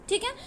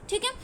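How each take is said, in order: Both takes have the same delivery.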